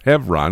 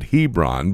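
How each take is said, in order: First: The middle consonant is a V sound. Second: The middle consonant is a B sound. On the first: This is the Hebrew pronunciation. "the Hebrew B has a V sound" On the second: This is the local Georgia pronunciation. "in Georgia they pronounce it Hebron"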